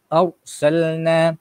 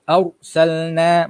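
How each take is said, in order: The two takes are said the same way.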